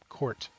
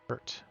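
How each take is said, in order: First: The vowel sounds like the one in 'court'. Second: The vowel sounds like the one in 'hurt'. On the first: "like a basketball court" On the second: "Kurt is not it"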